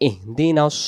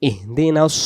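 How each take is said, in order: No difference in how they are said.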